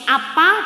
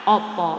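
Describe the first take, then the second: First: Both vowels are pronounced as an open 'a'. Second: Both vowels are pronounced as a rounded 'o'. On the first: This is the local dialect. "Kalau di sini apa" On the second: This is the Surabaya dialect. "di Surabaya opo"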